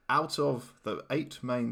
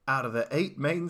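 First: It is said in a plain accent. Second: It is said in a put-on accent.

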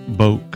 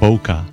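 First: It is one syllable rhyming with poke. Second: It ends like poker, with an -er ending. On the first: "It's not boke that rhymes with poke" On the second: "That rhymes with poker"

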